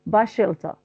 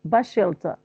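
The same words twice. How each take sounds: First: The s of the first word is dropped. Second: The s of the first word is dropped.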